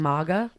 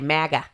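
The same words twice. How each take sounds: First: The word is said in a more refined way. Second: The word is said in a trashier way. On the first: The speaker calls it wrong. "I need her to stop saying MAGA" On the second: The speaker calls it right. "I want her to say MAGA. ... Trashier"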